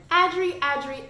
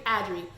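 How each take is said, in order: First: "Adri, Adri" called out higher and louder, lifted. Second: "Adri" dropped low with a falling end; flat final name. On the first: Vlogger calling out the stepmother's name, raised callout. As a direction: sing out "Adri, Adri" like summoning a villain. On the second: Vlogger closing the name callout, low falling finish. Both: Shown as a demonstration.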